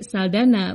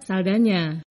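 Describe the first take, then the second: First: The middle consonant is a plain n sound. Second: The middle consonant is an ny sound. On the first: The speaker calls it wrong. "Sayangnya Hollywood lebih mengenal artis ini sebagai Saldana" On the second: The speaker calls it right. "huruf N dengan tanda berliku diucapkan seperti ny ... seharusnya dibaca Saldana"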